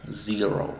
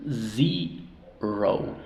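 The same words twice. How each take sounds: First: Said in the usual way. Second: "Zero" split into "zee" and "row"; syllable by syllable. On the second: Shown as a demonstration. Teacher showing how to pronounce it, Zero in separated syllables. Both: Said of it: "¿cómo pronunciamos?".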